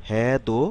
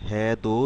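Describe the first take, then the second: No difference in how they are said.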